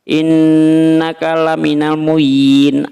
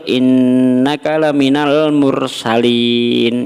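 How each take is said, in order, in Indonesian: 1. Kata terakhir terdengar seperti muyin. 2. Kata terakhir terdengar seperti mursalin. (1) "Masa baca Yasin aja tak pecus?" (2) "Padahal yang betul"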